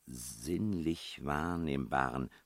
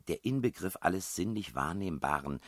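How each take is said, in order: First: Slow, deliberate sounding-out; puzzled repetition. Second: Said in the usual way. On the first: A narrator's reading. Puzzler repeating a baffling clue to herself, slow and deliberate. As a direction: dwell on each word as you puzzle it out.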